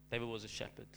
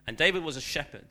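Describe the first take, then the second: First: Softer, letting it sink in; soft repeat. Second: Said in the usual way. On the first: Real, not acted. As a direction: say it again, quietly. Reflective repeat, dropped soft.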